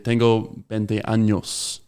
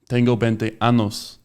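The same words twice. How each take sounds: First: The last word has an 'ny' sound. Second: The last word has a plain 'n' sound. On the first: The speaker is twenty years old. The speaker calls it right. "Años with an ñ" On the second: The speaker has twenty anuses. The speaker calls it wrong. "they don't know how to pronounce the ñ"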